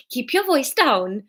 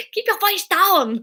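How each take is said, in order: First: Welsh attempt sliding into Indian accent; slow, lilting accidental Indian accent; Indian-sounding accent. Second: High, slow mock Austrian accent; exaggerated, drawn-out Austrian-accented delivery; Schwarzenegger. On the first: Narrator botches Fiona's Welsh line, it turns Indian-accented. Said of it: "it's gone Indian now". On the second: Narrator mimics her own botched take, mock Austrian accent. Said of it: "I think I might be doing Schwarzenegger". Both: Shown as a demonstration.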